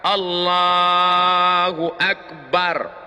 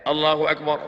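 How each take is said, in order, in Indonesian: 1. Frasa itu diucapkan panjang dan lambat. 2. Frasa itu diucapkan cepat dan pendek. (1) "dijalankanlah niat itu di dalam takbir. Dari A sampai bar" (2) "takbirnya pendek"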